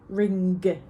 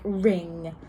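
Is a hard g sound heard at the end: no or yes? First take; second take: yes; no. First: The word ends with a separate hard g sound. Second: The word ends softly without a separate g sound. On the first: The speaker calls it wrong. "we don't necessarily say ring" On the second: The speaker calls it right. "it's more just like ring"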